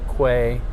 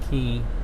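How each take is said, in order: First: The word is pronounced like kway. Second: The word is pronounced like key. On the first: The speaker calls it wrong. "Most people mispronounce it Quay" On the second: The speaker calls it right. "it's called pronounced Key"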